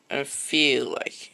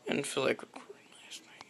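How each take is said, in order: First: Said in the usual way. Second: Soft unvoiced whisper, a bit fast. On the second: Real, not acted. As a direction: breathe it out as a quick secret. Whispered confession to camera.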